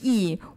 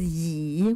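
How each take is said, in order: First: It is said with the fourth tone. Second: It is said with the third tone. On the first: It means righteousness. "The fourth term is yi" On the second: It means chairs. "The third term is yi"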